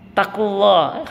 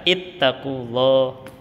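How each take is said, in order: First: The word starts directly with a consonant. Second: The word starts with an opening 'i' vowel. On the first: The speaker calls it wrong. "katanya kan takullah" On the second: The speaker calls it right. "harusnya kan ittaqullah"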